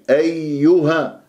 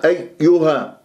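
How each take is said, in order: First: أيها slow, the doubled yā fully voiced; both yā sounds. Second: أيها with the yā cut off after "ay"; vanishing yā sound. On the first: Teacher shows students the correct أيها, yā clearly doubled. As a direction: linger on the yā of أيها so both are heard. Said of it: "لازم أجيب صوت الياءين". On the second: Teacher shows a mistake in أيها, yā sound lost. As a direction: break أيها so the yā sound disappears. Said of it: "يختفي عندي الصوت". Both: Shown as a demonstration.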